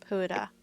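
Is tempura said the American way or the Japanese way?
Japanese. It is said with a Japanese pronunciation. The speaker calls it right. "we learned that it is tempura instead of"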